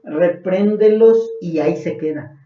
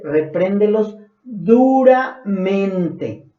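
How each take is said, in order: First: Said in the usual way. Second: Very slow, drawn-out "Repréndelos duramente" with "duramente" weighted at the end; slow, heavy "duramente" to close the verse; stress on duramente. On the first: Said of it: "fíjense, Pablo no dice". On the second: Shown as a demonstration. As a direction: drag out "duramente" to make it heavy. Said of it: "sino dice".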